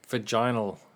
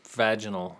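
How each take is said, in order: First: The word is said the Australian way. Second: The word is said the American way. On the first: "vaginal sounds more like what an Australian would say" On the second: "vaginal is more like what an American would say"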